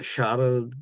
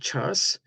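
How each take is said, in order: First: The name is said with a French pronunciation. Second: The name is said with an English pronunciation. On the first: "pronounce it uh, as a French" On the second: "in English"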